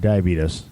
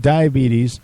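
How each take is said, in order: First: The word is said in an imitated, folksy pronunciation. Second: The word is said in an ordinary, plain way.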